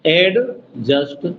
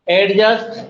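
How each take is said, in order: First: adjust very slow, paused after एड; held एड, separate just; first syllable isolated. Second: Said in the usual way. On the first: Shown as a demonstration. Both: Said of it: "अब first syllable".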